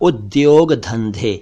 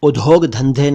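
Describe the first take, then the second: First: The first cluster is a 'dy' sound. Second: The first cluster has an aspirated 'dh' sound. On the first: The speaker calls it right. "बल्कि" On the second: The speaker calls it wrong. "नहीं"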